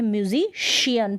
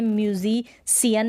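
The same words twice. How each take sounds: First: "म्यूजिशियन" with a clear sh; correct sh pronunciation. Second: "म्यूजिशियन" with plain s in place of sh; wrong s pronunciation. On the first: Teacher models musician for learners, correct sh pronunciation. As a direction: say "म्यूजिशियन" as myu-zi-shi-yan. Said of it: "पढ़ते हैं". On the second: Teacher rejects a misreading of musician, wrong s pronunciation. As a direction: say "म्यूजिशियन" as myu-zi-si-yan. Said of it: "नहीं पढ़ते हैं". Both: Shown as a demonstration.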